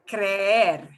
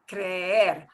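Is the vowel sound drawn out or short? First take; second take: drawn out; drawn out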